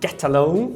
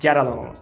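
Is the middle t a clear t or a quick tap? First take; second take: clear t; quick tap. First: The t between the words is a clear t. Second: The t between the words is a quick tap. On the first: "ao invés de termos get alone" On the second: "a gente vai ter get along, re, re"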